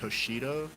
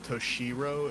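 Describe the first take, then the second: First: The middle consonant sounds like an English D. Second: The middle consonant sounds like an English R. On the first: "the R sounds kind of like a D" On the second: "instead of Toshiro"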